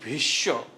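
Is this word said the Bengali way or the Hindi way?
Bengali. It is said with a Bengali pronunciation. "আমরা বাংলাতে যেটা বলছি"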